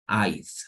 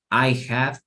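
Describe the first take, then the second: First: The words are run together as one contraction. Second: Both words are said fully and separately.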